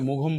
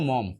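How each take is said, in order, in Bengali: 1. এটি দুই সিলেবলে উচ্চারিত হয়, 'g' সহ। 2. এটি এক সিলেবলে উচ্চারিত হয়, 'mom' এর মতো। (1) "অনেকে মুঘম বলেন, এটা করা যাবে না" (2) "এটা উচ্চারণ কিন্তু মম"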